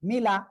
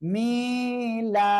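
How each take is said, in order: First: The vowels are said short and quick. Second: A vowel is dragged out long. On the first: The speaker calls it right. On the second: The speaker calls it wrong.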